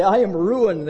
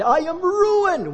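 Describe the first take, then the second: First: A touch louder, slightly raised cry; only hint at the scream; mild mock scream. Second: High, slow wail of ruin; anguished cry. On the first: Sinners seeing God's glory, mild mock cry. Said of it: "They scream and they say". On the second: Retold or imitated. Isaiah before the holy God, high slow wail. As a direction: cry out "ruined" as if all is lost. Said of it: "I cried".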